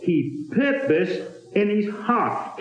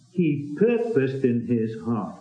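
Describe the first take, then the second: First: "purposed" stressed, slow and higher; slow, weighty stress on "purposed"; emphasized reading. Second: "purposed" stressed, lower and softer; lower, hushed echo with weight on "purposed"; soft, low repeat leaning on "purposed"; quiet emphasis. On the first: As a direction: lean on "purposed", slow and lifted. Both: Shown as a demonstration. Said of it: "I try to emphasize the words".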